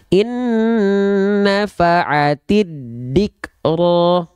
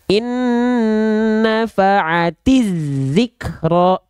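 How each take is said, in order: First: The last word begins with a d sound. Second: The last word begins with a z sound. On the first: "Tidak, tidak dal tapi zal" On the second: "jadi dia jadi huruf zai"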